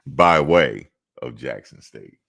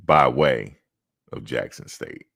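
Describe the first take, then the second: First: By way of Jackson State, each word slow and louder, "by" hit hardest; slow, stressed announcer phrasing. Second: Said in the usual way. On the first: Shown as a demonstration. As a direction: land "by way of Jackson State" slowly with weight on "by". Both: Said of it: "I'll have to say it like that".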